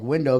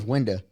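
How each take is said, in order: First: Said in the usual way. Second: "window" ending in a loose "uh"; "window" with the final o reduced to "uh"; regional pronunciation. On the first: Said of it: "start saying your words different". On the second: Shown as a demonstration. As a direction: say "window" as "winda". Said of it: "window becomes window".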